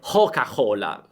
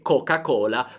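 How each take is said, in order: First: The C sounds are breathy and aspirated. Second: The C sounds are plain hard stops. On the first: "potreste sentire" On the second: "anziché"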